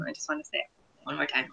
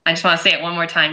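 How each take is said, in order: First: Softer, quick repeat under the breath; tossed off much softer and faster; quiet fast aside. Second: Said in the usual way. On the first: Real, not acted. Podcaster repeating the line to friends, softer and quick.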